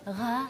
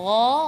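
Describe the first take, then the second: First: The gh sound is breathy with audible air. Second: The gh sound is voiced without escaping air. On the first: The speaker calls it wrong. "bukan gha, gha, gha. Berarti itu bukan ada jahar" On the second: The speaker calls it right. "seperti ini"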